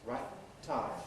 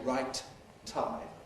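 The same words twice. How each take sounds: First: One t closure is held long, then released. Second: Each t is released separately, slowly and carefully. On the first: The speaker calls it right. "you hold it for a long time. And then you release it" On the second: The speaker calls it wrong. "very slow and very careful and not normal in connected speech"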